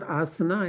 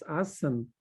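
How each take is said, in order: First: The word ends with a final vowel sound. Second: The word ends without a final vowel sound. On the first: The speaker calls it wrong. "not asana" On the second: The speaker calls it right. "it's asan"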